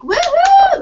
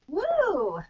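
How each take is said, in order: First: The cheer sounds loud and energetic. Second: The cheer sounds weak and tired.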